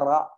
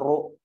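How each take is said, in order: First: The r is only lightly thickened, with an a vowel. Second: The r is heavily thickened, with a u vowel. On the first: The speaker calls it right. "bacanya ra" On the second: The speaker calls it wrong. "bukan ru"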